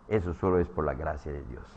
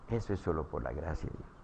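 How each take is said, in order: First: Said in the usual way. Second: Soft, quicker repeat. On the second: Shown as a demonstration.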